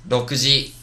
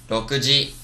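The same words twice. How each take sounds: No difference in how they are said.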